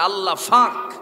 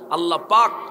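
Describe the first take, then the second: First: It is said Noakhali-style with f replacing p. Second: It is said with standard Bengali p sound.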